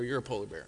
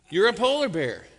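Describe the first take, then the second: First: Low, soft, patient "You're a polar bear"; calm dad. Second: Fed up, louder "You're a polar bear"; mock exasperation, end it firmly; frustrated dad. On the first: Retold or imitated. Father bear calmly tells cub, low and soft. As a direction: settle it gently, lower and softer. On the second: Father bear, fed up, insists to his cub, louder. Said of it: "getting frustrated now".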